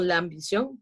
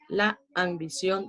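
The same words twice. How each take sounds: First: The two words run together without a pause. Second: There is a pause between the two words. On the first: The speaker calls it right. "yo lo digo continuo" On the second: The speaker calls it wrong. "yo no digo en español"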